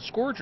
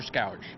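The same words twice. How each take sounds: First: "scourge" with an OR vowel, as in "score"; scourge like "scorge". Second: "scourge" with an OW vowel, as in "scour"; scourge like "scowrge". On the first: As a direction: say "scourge" to rhyme with "gorge". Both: Shown as a demonstration. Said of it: "is it scourge or scourge?".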